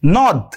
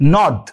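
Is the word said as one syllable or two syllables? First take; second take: one syllable; one syllable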